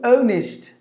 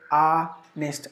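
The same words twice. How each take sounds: First: The first vowel is rounded, British style. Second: The first vowel is unrounded, American style. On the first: "If you go to U K, they would say oh, honest. Look at the mouth that is rounded" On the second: "if you go to U S, they would say honest. The lips are spread a bit"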